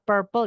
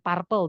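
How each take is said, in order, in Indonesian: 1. Dilafalkan dengan cara bahasa Inggris baku. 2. Dilafalkan mengikuti tulisannya dengan cukup dekat. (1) "Ini bacanya purple ya" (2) "bukan purple"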